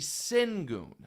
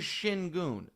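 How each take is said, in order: First: The first syllable sounds like 'sin'. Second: The first syllable sounds like 'shin'. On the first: This is the name read as it is spelled. The speaker calls it wrong. "going to do it the way it's spelled" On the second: This is the player's actual name. The speaker calls it right. "His name is Shingun"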